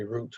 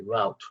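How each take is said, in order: First: "route" said like "root"; British pronunciation. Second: "route" rhyming with "out"; American pronunciation. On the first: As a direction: say "route" with a long oo vowel. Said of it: "British people say route". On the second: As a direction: say "route" with an ow vowel. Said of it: "Americans say route". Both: Shown as a demonstration.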